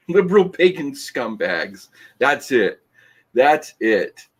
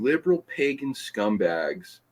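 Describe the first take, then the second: First: Mock outraged. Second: Said in the usual way. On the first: Reads insult from comment aloud.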